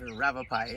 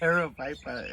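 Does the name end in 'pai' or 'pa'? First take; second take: pai; pa. First: The name ends with a 'pie' sound. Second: The name ends with a 'pah' sound. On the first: The speaker calls it wrong. "I keep wanting to call it a Ravapai" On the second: The speaker calls it right. "It's Aravaipa"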